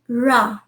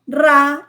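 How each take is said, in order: First: The r sound is soft and gentle. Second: The r sound is hard and strong. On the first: The speaker calls it right. "it is ra, ra, even softer" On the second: The speaker calls it wrong. "It is not ra"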